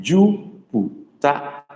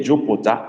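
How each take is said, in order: First: Very slow Jupiter with a close u; correct vowels. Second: Jupiter with an open o; wrong version. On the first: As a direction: draw out Jupiter as the model. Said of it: "I said Jupiter". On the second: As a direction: Jupiter said quickly, like jopota. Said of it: "Hear me well. I didn't say Jupiter". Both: Shown as a demonstration.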